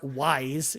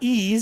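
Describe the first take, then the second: First: The name is said like the word wise. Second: The name is said like the word ease. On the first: "if you want to pronounce it with the the lettering" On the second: "I don't even know what ease is"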